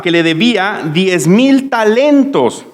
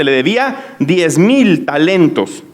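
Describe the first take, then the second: First: Said in the usual way. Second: Slowly, leaning hard on mil; slow emphasis on mil. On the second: Shown as a demonstration. Preacher stressing the huge debt, slow with mil stressed. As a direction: let diez mil talentos sink in slowly. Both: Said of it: "Escuche, esto es importante".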